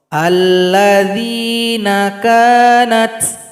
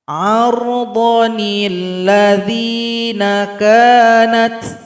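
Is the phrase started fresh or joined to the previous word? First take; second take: started fresh; joined. First: It starts fresh with an "a" sound. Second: It runs on from the previous word with "nil". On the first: The reader stops before the phrase and begins anew. "Cara mulainya nun kecil diabaikan. Yang kita baca hamzah wasal" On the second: The phrase is connected to the previous verse. "kalau kita gabung dengan ayat sebelumnya"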